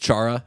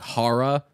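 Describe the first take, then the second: First: The name gets the common anglicized pronunciation. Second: The name gets its native, original pronunciation. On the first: This is how most people say the name. "Everyone says Chara" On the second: This is how the name is really said. "actually is, like, Hara"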